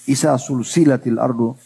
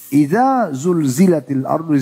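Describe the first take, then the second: First: The consonants are voiceless, hissing s sounds. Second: The consonants are voiced, buzzing z sounds. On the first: Something is continuously connected. The speaker calls it wrong. "Anda baca sin" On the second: When the earth is shaken. The speaker calls it right. "Idza pakai zal"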